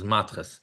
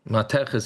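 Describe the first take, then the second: First: The word gets a yeshivish Ashkenazi pronunciation. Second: The word gets its standard Hebrew pronunciation. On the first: "The yeshivish way to pronounce it" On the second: "is the real way to pronounce it"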